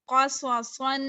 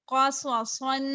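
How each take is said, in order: Both takes have the same delivery.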